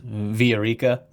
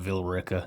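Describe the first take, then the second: First: The name is given its original Spanish-style pronunciation. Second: The name is given a local Southern American pronunciation. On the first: It means the city of gold. "actual pronunciation pronunciation of it is" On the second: This is how the locals say it. "we all call it Villa Rica because we were from the south"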